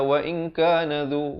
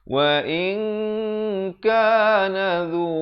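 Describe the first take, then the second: First: The nasal n is rushed past without holding. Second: The nasal n is held for two beats. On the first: The speaker calls it wrong. "Ramai orang baca wa in kana dzu, wa in kana dzu. Jadi dia langgar" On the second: The speaker calls it right. "kena dua harakat, ikhfa, nun mati bertemu kaf"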